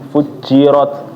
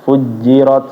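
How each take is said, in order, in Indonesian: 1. Huruf j ditekan keras, terdengar seperti ch. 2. Huruf j lembut, tidak ada bunyi ch. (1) "dia terlalu ditekan banget ya" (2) "Yang benar adalah nggak ada C-nya ya"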